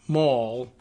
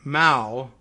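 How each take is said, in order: First: Said in the usual way. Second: "mal" with a short, flat a, like "pal"; British pronunciation. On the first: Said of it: "the way we Americanize it". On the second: Shown as a demonstration. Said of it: "the British English pronunciation of M A L L is".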